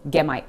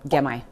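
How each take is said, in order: First: "Gemai" with no T, "get my" melted into one word; gemai blend. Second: Said in the usual way. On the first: Shown as a demonstration. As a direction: drop the T and melt the words. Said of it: "T sound at the end of get completely disappears". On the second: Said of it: "just say".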